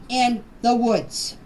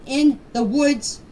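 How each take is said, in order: Both takes have the same delivery.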